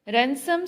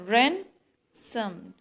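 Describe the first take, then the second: First: Said in the usual way. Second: RAN... sum, in two separate beats; stressed first syllable. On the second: Shown as a demonstration. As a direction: punch RAN, then drop the second syllable. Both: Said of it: "stress is on first syllable".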